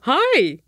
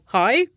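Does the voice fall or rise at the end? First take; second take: fall; rise. First: It is said with a falling, exclamatory tune. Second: It is said with a rising, questioning tune.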